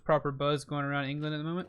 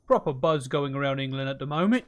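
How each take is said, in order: First: Said in the usual way. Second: A lightly put-on, louder British accent; bad British accent. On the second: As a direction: try a clumsy English accent on it. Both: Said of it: "That's not a very good accent".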